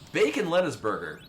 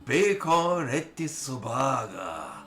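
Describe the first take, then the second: First: It is said with a plain English pronunciation. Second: It is said with a flamboyant Japanese pronunciation.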